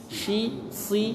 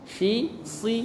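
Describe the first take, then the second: Both takes have the same delivery.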